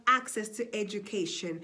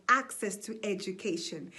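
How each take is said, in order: Both takes have the same delivery.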